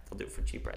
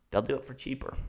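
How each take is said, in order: First: Whispered repeat. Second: Said in the usual way. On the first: Real, not acted. Vlogger whispering the point a second time to viewers. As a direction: drop to a whisper for They'll do it for cheaper.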